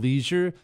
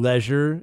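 First: It is said in the plain, ordinary pronunciation. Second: It is said in a fancier-sounding pronunciation.

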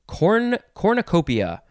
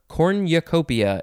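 First: The 'u' is said without a 'y' glide. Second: The 'u' is said with a 'y' glide.

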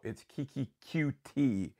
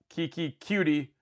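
First: The surname is said as two separate letters. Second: The surname is said as one blended word. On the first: The speaker calls it right. "like the two letters QT" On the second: The speaker calls it wrong. "like he's a cutie"

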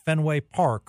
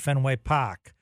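First: It is said in a plain accent. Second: It is said in a Boston accent.

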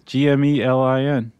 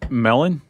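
First: The name begins with a sounded G. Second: The name begins with a silent G. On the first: "I think it's Gmelin" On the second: "I would go silent G on that"

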